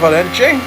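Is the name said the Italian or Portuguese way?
Portuguese. It is said with a Portuguese pronunciation. "I'm going with the Portuguese pronunciation"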